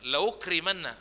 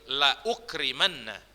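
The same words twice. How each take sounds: First: The hamza is dropped and the sounds run together. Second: The hamza is pronounced as a clear glottal stop. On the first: The speaker calls it wrong. "nggak boleh dibaca la ukrimanna, ... Ah, nggak gitu" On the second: The speaker calls it right. "ditulis dan dibaca"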